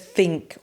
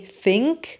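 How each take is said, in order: First: The word begins with an f sound. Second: The word begins with a th sound.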